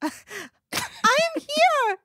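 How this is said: It is said in a weird, panicked voice.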